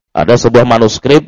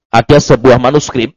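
The two takes are said the same way.

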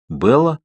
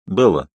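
First: Белла? called out with a rising end; calling from afar. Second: Белла said lower and falling, settled; calmer call. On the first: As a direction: call her name from a distance. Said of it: "Откуда-то издалека позвал знакомый голос". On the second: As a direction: call her name more calmly. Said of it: "уже спокойнее позвал Калин". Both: A narrator's reading.

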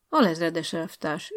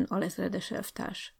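First: Said in the usual way. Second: Slow, soft mocking "alezredes elvtárs"; ironic remark. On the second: Teacher Bálint needling the young officer, ironic aside. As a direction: drop it quietly with irony. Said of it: "jegyezte meg Bálint tanító úr".

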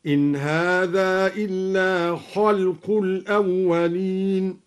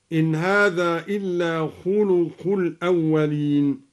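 First: Slow chant, خلق as "khalqu"; opened kha, silent lam. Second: Said in the usual way. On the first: Shown as a demonstration. Teacher shows al-Duri's reading, slowly chanting خلق as "khalqu". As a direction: chant خلق with a after kh and no vowel on l. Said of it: "هكذا". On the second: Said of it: "قرأ الدوري بفتح الخاء".

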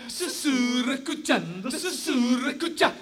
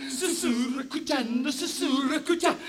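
No difference in how they are said.

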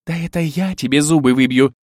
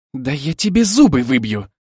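First: Higher, louder angry retort; snappish counter-threat. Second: Louder heated threat; angry threat. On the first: Bride returning her rival's threat, snappish angry retort. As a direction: throw the threat straight back. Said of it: "огрызнулась Ольга". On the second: Bride threatening her rival in a quarrel, heated threat. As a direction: threaten the rival with raised volume. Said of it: "сверкнула глазами Милена". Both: A narrator's reading.

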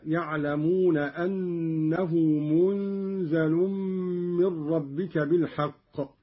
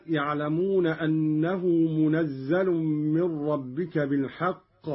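First: منزل said "munzalun", nasal hum held before a single z; light zay, hidden nun. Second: Said in the usual way. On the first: Shown as a demonstration. Teacher showing Qalun's reading, منزل with ghunna and single zay. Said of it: "قرأ قالون بإسكان النون". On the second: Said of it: "بإسكان النون وتخفيف الزاي".

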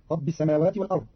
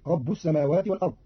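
First: Said in the usual way. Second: رب ending in u, "rabbu s-samawat"; ba with damma. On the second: Shown as a demonstration. Teacher showing Qalun's reading, رب said "rabbu". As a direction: say رب as "rabbu", not "rabbi". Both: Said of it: "برفع الباء".

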